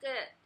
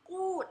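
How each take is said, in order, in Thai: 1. สระนี้เป็นเสียงสั้นคล้าย 'er' ที่ลดรูป 2. สระนี้เป็นเสียง 'oo' เต็มเสียงและยาว (1) "เป็นเกิด" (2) "ไม่ออกเสียงกูดนะคะ"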